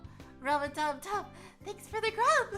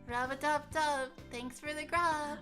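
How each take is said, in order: First: It is said with much more excitement. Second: It is said with little excitement.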